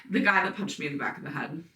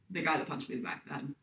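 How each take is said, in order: First: Said in the usual way. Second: Rattled off fast and much softer, like a set nickname; the name everyone knows him by, muttered fast and low; quick tag line. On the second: Shown as a demonstration. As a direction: toss off his label as one quick, hushed phrase. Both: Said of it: "that's how we identify him".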